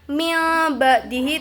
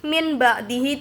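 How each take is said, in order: First: The first word ends with an l sound. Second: The first word ends with an n sound. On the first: "Bukan mil ba'dihi itu salah" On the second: "min ba'dihi itu salah"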